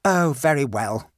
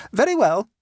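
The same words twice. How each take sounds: First: Grudging, sulky give-in. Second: High and loud, a quick agreement; the relieved mother settling it at once; brisk mother. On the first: A narrator's reading. Victor giving in to his mother, sulky and grudging. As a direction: mutter it like a beaten boy. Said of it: "said Victor sulkily". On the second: Acted. Mother agreeing with her son, high and brisk.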